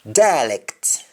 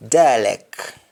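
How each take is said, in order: First: Said in the usual way. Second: Dialect ending on K, as "dialeck"; Jamaican pronunciation. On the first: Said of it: "English words that end with C T". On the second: Shown as a demonstration. Teacher showing Jamaican speech, dialect said as "dialeck". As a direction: drop the T of dialect. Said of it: "That is Jamaican accent".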